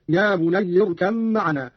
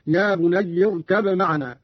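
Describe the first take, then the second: First: "بني اركب معنا" as bunayyi-rkam-ma'ana; kasra with idgham. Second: "بني اركب معنا" as bunayyi-rkab ma'ana, clear b; kasra with izhar. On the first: ("بني" بكسر الياء وإدغام باء "اركب" في الميم) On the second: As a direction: keep the b of "اركب" distinct before "معنا". ("بني" بكسر الياء وإظهار باء "اركب") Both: Shown as a demonstration. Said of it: "وله الإظهار والإدغام".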